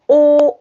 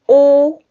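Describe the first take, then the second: No difference in how they are said.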